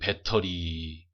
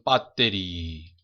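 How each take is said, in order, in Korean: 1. 한국 억양으로 발음돼요. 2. 일본 억양으로 발음돼요. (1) "우리나라 사람들은" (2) "일본 사람들은"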